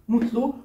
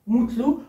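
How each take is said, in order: The two takes are said the same way.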